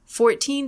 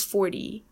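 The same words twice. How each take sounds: First: Fourteen with a crisp, released T; hard T and long ee in fourteen; true T in teens. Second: Forty with a D-like T; flapped T in tens. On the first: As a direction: say fourteen with a clear "TEEN". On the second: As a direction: say forty as "fordy". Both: Shown as a demonstration. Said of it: "They sound completely different".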